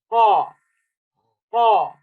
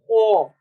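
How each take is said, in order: First: The vowel is open, without lip rounding. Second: The vowel is rounded, like an O sound. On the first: The speaker calls it right. "your lips should be in the for semicircular form" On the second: The speaker calls it wrong. "it's not ho. No, this is the wrong sound"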